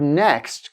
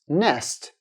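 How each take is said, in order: First: The k sound before st is pronounced. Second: The k sound before st is dropped. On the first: The speaker calls it right. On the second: The speaker calls it wrong.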